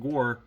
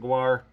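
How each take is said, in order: First: The name is said like 'gore', without a w. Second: The name is said like 'gwar', with a w. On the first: This is how most people say it. "More people pronounce it Gore" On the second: This is how the speaker personally says it. "I pronounce it Gwar"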